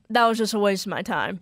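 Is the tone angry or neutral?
neutral. It is said in a neutral tone.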